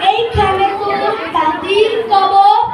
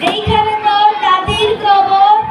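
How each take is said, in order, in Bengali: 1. জড়ানো, মুখভরা গলায় আবৃত্তি করা হয়েছে। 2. সাধারণ, সহজ গলায় আবৃত্তি করা হয়েছে। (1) "যে পান খায় সবসময়" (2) "একজন সাধারণ মানুষ"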